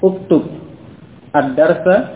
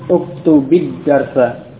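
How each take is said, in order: First: The verb ends on a bare consonant before the article. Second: The verb ends with an added 'i' vowel, linking onward. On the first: This is the underlying form before linking. The speaker calls it wrong. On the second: This is how it is read when joined to the next word. The speaker calls it right.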